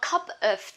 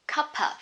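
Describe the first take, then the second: First: The words are said separately. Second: The words are linked into one word. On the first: "You can say a cup of tea" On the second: "or you can link them together"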